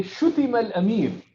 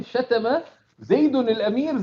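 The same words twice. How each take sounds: First: شُتِمَ said as shutima, falling tune; quick passive reading شُتِمَ, u then i; شُتِمَ الْأَمِيرُ with the verb shutima; passive form. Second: شتم said as shatama with Zayd named; شتم زيد, shatama, with the doer spoken; active form. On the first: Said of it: "You say". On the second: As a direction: active reading شتم, shatama, slightly raised. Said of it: "if you say". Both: Shown as a demonstration.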